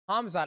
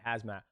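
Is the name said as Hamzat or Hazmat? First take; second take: Hamzat; Hazmat. First: The m sound comes before the z. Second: The z sound comes before the m. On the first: The speaker calls it right. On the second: The speaker calls it wrong.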